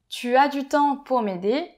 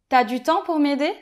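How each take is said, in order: First: The word tu is said in full. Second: The word tu is shortened to a t sound. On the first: "au lieu de dire" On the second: "je vais dire"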